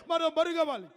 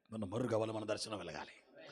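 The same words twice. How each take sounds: First: High, ringing call; loud pulpit proclamation; proclaimed. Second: Lower, soft repeat; quiet echo of the call; hushed echo. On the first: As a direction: declare it out to the hall. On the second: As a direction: drop it to a near whisper. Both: Shown as a demonstration. Loud then hushed repeat.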